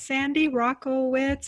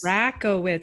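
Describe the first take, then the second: First: The first syllable does not sound like racket. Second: The first syllable sounds like racket. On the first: The speaker calls it wrong. "Is that how you say it" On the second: The speaker calls it right. "like the tennis racket"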